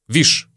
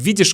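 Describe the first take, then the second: First: The word is reduced to one short syllable. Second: The word is said in full, both syllables clear. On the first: "произносим видишь как виш" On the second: "Мы произносим видишь как виш"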